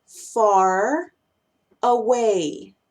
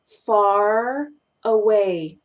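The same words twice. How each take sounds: First: "far" and "away" said separately, a pause between; "far" then a separate "away"; words said apart. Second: "far away" very slow, the R of "far" held into "away"; "far away" like one word, "fa-raway"; slow linked phrase. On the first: Teacher to students, saying the words one by one. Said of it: "Otro caso". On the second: Teacher to students, slowly linking with a held R. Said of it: "Cuando los conecto suenan". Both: Shown as a demonstration.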